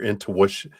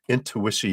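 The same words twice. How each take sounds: First: It is said in a plain English accent. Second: It is said in a French accent.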